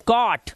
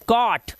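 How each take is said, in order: First: The vowel is an open 'aw' sound. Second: The vowel is an open 'aw' sound.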